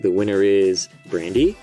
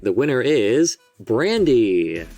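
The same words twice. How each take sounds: First: The voice rises at the end on Brandy. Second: The voice falls at the end on Brandy.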